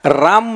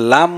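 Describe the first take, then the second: First: The name begins with a clear R sound. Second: The name begins with an L sound instead. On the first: "राम म्हणलं तरी चालतं" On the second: "लांब म्हणलं तरी चालतं कारण त्याला र म्हणताच येत नाही ना"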